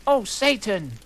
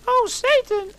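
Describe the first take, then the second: First: High, louder but tamer falsetto cry; milder falsetto retake; mock pleasure yell. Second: Extremely high, loud falsetto cry; hammed-up yell. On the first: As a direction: pull it back a notch, still high. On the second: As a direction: squeal it over the top. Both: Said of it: "yelled Harry in pleasure".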